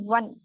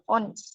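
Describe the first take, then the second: First: The word begins with a W sound. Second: The word begins with a vowel sound. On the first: The speaker calls it right. "it is pronounced as one" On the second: The speaker calls it wrong. "instead of on"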